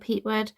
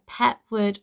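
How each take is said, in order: First: The first syllable sounds like 'peat'. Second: The first syllable sounds like 'pet'.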